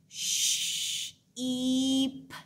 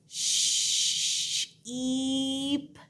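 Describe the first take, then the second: The two takes are said the same way.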